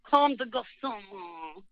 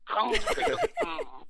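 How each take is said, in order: First: The name is said in a plain, anglicized way. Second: The name is said with a throaty French r.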